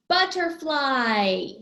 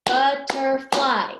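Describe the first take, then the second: First: BUTTERFLY drawn out in one falling glide; word announced whole. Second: BUTTERFLY in three loud, slow beats; syllable by syllable. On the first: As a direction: stretch BUTTERFLY slowly, running it together. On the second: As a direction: clap out BUT, TER, FLY in BUTTERFLY. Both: Shown as a demonstration. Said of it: "it does have three".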